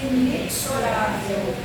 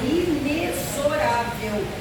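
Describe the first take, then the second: First: The x is sounded as ks. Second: The x is sounded as z. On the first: The speaker calls it wrong. "que a maioria pronuncia inexorável, e não é essa pronúncia" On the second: The speaker calls it right. "O correto é inexorável, tem som de Z"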